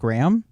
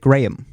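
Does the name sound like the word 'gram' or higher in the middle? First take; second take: gram; higher middle. First: The name sounds like the single word gram. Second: The name is pitched higher in the middle. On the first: This is how the name's owner says it. The speaker calls it right. "So I say my name Graham, sort of like a gram of cracker" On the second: This is how other people say the name. The speaker calls it wrong. "it's a little higher in the middle"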